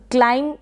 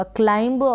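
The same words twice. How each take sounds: First: क्लाइम ending on m, no b; क्लाइम with the final b left silent. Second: क्लाइंब with an audible b at the end; wrong sounded B. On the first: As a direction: say क्लाइम and stop on the m. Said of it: "पढ़ेंगे तो correct होगा". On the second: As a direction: say क्लाइंब, releasing a b after the m. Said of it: "क्लाइंब पढ़ेंगे तो गलत हो जाएगा". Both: Shown as a demonstration.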